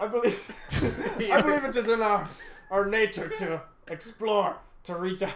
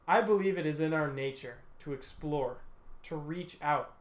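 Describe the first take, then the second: First: It is read in a put-on Scottish accent. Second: It is read in the speaker's normal voice. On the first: "you should definitely do a Scottish accent" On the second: "just go in normal voice"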